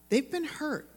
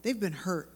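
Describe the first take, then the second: First: "been" lifted high and leaned on; stress on been. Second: Said in the usual way. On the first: Shown as a demonstration. Preacher repeating to the women, stressing "been". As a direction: press hard on "been" in "They've been hurt".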